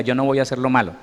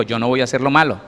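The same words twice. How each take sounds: First: Said in the usual way. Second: Firmer repeat. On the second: Shown as a demonstration. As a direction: lead the congregation firmly in "Yo no voy a hacer lo malo". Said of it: "No, dígalo conmigo".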